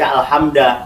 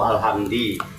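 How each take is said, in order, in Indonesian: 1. Kata itu berakhir dengan vokal a. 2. Kata itu berakhir dengan vokal i. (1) "tidak mungkin dibaca" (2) "tidak mungkin dibaca"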